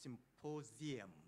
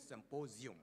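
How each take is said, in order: First: The last syllable sounds like 'yem'. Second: The last syllable sounds like 'yum'. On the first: The speaker calls it right. "it should be pronounced symposium, yem, not yum. That is the correct pronunciation" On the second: The speaker calls it wrong. "Nigerian pronunciation is symposium"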